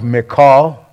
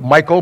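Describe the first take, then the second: First: It sounds unlike the man's name Michael. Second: It sounds like the man's name Michael. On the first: The speaker calls it right. "So I believe it's pronounced Michal" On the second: The speaker calls it wrong. "I know some people pronounce it Michael, but I'd hate to have my wife called Michael"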